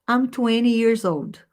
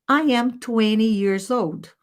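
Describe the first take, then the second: First: The sentence is said at a faster pace. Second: The sentence is said at a slower pace.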